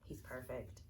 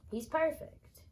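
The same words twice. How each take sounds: First: Soft awe. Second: He's perfect high and loud, perfect rising; excited squeal. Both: Real, not acted. Repeats praise, varied takes.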